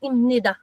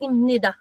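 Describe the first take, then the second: First: An m sound comes before nida. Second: An m sound comes before nida.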